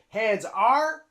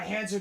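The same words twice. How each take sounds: First: The word 'are' is said as a full separate word. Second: The word 'are' is contracted onto 'hands'. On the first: The speaker calls it wrong. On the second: The speaker calls it right. "We use the contraction"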